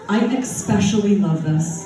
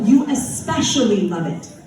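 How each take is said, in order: First: Especially is said with an added X sound. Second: Especially is said without an added X sound. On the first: The speaker calls it wrong. "why are you putting an X in that word?" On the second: The speaker calls it right.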